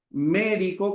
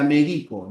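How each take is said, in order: First: "médico" stressed on MÉ, drawn out; stress on first syllable. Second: "medico" stressed on DI; stress on middle syllable. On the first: Teacher contrasting word pairs, "médico" stressed on MÉ. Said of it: "médico con tilde". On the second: Teacher contrasting word pairs, "medico" stressed on DI. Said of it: "Cambia el acento y cambia el significado". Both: Shown as a demonstration.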